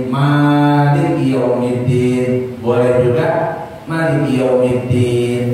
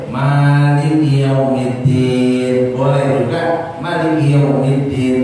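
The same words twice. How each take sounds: No difference in how they are said.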